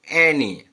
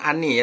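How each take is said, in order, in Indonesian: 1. Vokal pertama terdengar seperti 'eh'. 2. Vokal pertama terdengar seperti 'ah'. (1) "tapi e" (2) "bukan ani ya"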